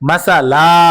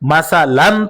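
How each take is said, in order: First: The word ends with a drawn-out long vowel. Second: The word ends with a short vowel and n. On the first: The reader stops on this word. "দুই জবরের বামে অক্ফ করিলে এক আলিফ টানিয়া পড়িতে হয়" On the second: The reader does not stop on this word. "যদি এখানে অক্ফ করি তাহলে উচ্চারণটা আমাদের কেমন হবে? মাসালান থেকে"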